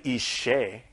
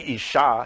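First: The word ends with an 'eh' vowel. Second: The word ends with an 'ah' vowel. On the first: It means an offering of fire. "If you say Ishe, it means offering of fire" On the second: It means woman. "If you say Isha, it means woman"

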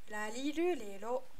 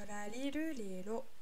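First: The R is a light sound between R and L. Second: The same.

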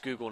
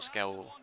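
First: The name is said as 'Scoogle'. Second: The name is said as 'Scowable'. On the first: The speaker calls it right. "apparently it's Scoogle" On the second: The speaker calls it wrong. "not Scowable"

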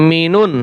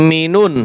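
No difference in how they are said.

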